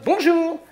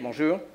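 First: The greeting sounds warm, friendly and lively. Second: The greeting sounds flat, dull and unfriendly. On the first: The speaker is pleased to talk with the caller. The speaker calls it right. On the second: The speaker is only answering out of duty. The speaker calls it wrong.

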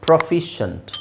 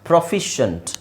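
The two takes are said the same way.

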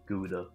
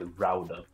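First: The name is said the common English way. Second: The name is said the native Dutch way. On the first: This is how many people commonly say it. The speaker calls it wrong. "there's a lot of people call it Gouda" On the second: This is the real native pronunciation. The speaker calls it right. "it's pronounced Rauda"

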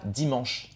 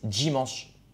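First: The d is a plain, clean stop. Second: The d is followed by a j-like hiss. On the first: "Ils disent pas dimanche" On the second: "ils disent dimanche ... ils mettent un J dedans"

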